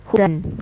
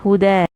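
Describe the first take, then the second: First: The word ends with an n sound. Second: The word ends with a long a vowel. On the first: This is the word's full form without stopping. "the word is hudan" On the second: This is the form used when stopping on the word. "when I stop on this word, when I pronounce it"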